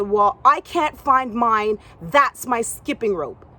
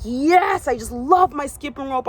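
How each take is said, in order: First: Insisting. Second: Excited. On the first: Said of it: "She said". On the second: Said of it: "and I'm like". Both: Retold or imitated.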